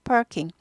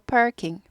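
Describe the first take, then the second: No difference in how they are said.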